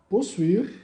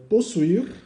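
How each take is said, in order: Both takes have the same delivery.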